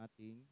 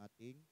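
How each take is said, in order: The two takes are said the same way.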